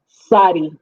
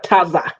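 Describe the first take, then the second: First: The word begins with a near-silent t, like s. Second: The word begins with a full, clear ts sound. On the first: The speaker calls it right. "Almost like the T is silent a little bit" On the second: The speaker calls it wrong. "It is not taza"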